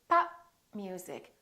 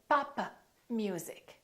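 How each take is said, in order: First: The final p of pop is not released. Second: The final p of pop is audibly released. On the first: The speaker calls it right. "I didn't release my lips" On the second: The speaker calls it wrong. "Don't say"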